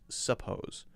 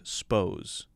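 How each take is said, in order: First: The word is said in full with both syllables. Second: The first vowel is dropped, giving one syllable. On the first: "what he's saying is "suppose."" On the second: "sort of a shortened version"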